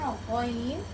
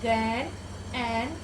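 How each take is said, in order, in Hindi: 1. अक्षर का नाम अरबी उच्चारण के साथ बोला गया है। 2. अक्षर का नाम एक गैर-अरबी स्वर के साथ बोला गया है। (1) "अरब के लबो लहजे पे पढ़ना है" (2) "ऐसे हमें नहीं पढ़ना है, ये मजहूल तरीका है"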